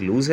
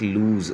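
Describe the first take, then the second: First: लूज said short, single vowel length. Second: लूज with the oo drawn out; double-vowel लूज. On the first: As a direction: say लूज quickly without stretching the oo. इनकी pronunciation में थोड़ा सा फ़र्क है. (लूज को छोटा बोलें) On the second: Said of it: "दो वॉवल की आवाज़ निकालना पड़ती है". (लूज में दो वॉवल की लंबी आवाज़) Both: Shown as a demonstration.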